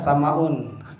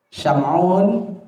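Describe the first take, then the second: First: The name is said with a Sundanese accent. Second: The name is said in the standard way.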